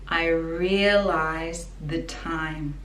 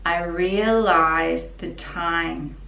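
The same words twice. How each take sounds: Both takes have the same delivery.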